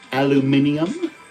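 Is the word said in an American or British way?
British. It is said the British way, five syllables.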